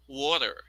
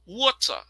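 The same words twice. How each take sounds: First: "Water" with an R ending, American style; American pronunciation. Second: "water" as "wɔtə", crisp T, no final R; British pronunciation. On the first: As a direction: say "Water" with a final R. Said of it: "The next one is American". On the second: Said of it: "the first version is the British". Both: Shown as a demonstration.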